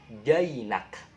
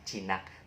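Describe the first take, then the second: First: The first vowel is an 'ai' glide sound. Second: The first vowel is a plain 'i' sound. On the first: The speaker calls it right. "Tapi bacanya jainak. Ah, kayak bahasa Inggris ya" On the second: The speaker calls it wrong. "bukan jinak"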